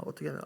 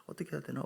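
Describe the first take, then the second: First: Said in the usual way. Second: "어떻게 해야 되나?" whispered to himself; whispered worry. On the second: Retold or imitated. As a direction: whisper the worried question. ("어떻게 해야 되나?"를 속삭이듯)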